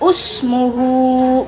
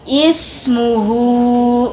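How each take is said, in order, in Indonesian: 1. Kata ini diawali dengan vokal u. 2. Kata ini diawali dengan vokal i. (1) "bukan usmuhu" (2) "kita mengawalinya dengan membaca ismuhu, begitu ya"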